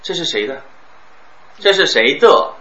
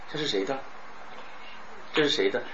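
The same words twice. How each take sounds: First: 这是谁的 with 的 hit hard and loud; wrong heavy 的. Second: 这是谁的 with 的 soft and barely touched; light 的. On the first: Teacher showing students the amateur reading, 的 stressed loud. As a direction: punch 的 like an amateur would. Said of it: "你看非专业". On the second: Teacher showing students the professional reading, 的 light and soft. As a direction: glide past 的 lightly. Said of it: "这一定要一带而过". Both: Shown as a demonstration.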